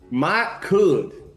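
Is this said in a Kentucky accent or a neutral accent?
Kentucky. It is said in a Kentucky accent.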